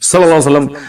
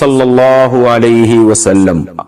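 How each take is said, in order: First: The phrase is rushed and clipped short. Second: The phrase is said slowly and fully articulated. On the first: The speaker is trying to save time. The speaker calls it wrong. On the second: The speaker is showing proper respect. The speaker calls it right.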